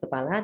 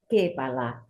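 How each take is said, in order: First: The first vowel is a weak schwa. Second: The first vowel is a full 'e'. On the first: "kita tidak bisa menyebut kepala" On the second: "tapi kepala ... jadi memang tidak ada pepet di sana"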